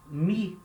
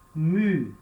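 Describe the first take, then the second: First: The vowel is an unrounded 'ee' sound. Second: The vowel is a rounded French 'u' sound. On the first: The speaker calls it wrong. "A gente fala muito mi" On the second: The speaker calls it right. "a pronúncia mais correta é mu"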